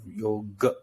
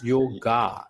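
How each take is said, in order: First: The final vowel is a short, small a. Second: The final vowel is a long, open a. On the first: It means the full practice of yoga. The speaker calls it right. "the end is yoga, a small a" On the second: It means doing physical postures. The speaker calls it wrong. "becomes yoga instead of"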